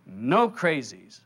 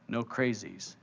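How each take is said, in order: First: Slow, drawn-out echo; doubter echoing. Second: Low, hushed correction; inner divine voice. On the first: Listener repeating the voice's words, slowly compliant. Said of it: "You go". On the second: Divine voice correcting a doubter, low and quiet. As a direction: say it quietly and evenly, pitched down. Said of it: "The voice says". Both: Acted.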